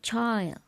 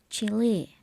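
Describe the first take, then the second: First: It sounds like the word child. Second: It sounds like the word chilly. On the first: The speaker calls it wrong. "not child" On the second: The speaker calls it right. "Chile is pronounced as Chile"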